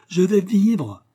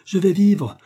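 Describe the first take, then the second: First: Higher, louder cry, now pressing on "vais"; joyful cry. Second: Higher, louder cry with the weight on "vivre"; joyful cry. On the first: Totaro, cured, crying out again in joy. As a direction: repeat the shout, hitting "vais" hard. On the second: Totaro, suddenly cured, crying out with joy. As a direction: shout it out, landing on "vivre". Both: A narrator's reading. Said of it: "Puis il s'écria".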